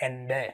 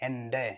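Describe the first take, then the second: Both takes have the same delivery.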